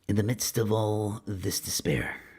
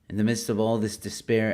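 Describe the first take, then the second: First: It is read in a dramatic movie-trailer voice. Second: It is read in the speaker's ordinary voice.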